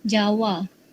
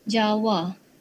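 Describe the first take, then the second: No difference in how they are said.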